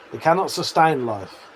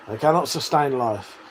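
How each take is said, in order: Both takes have the same delivery.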